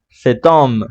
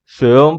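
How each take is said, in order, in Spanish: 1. Un sonido de t enlaza las palabras. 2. Las palabras se unen sin sonido de t. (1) "la T suena por la liaison" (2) "sonaría feo decir seom"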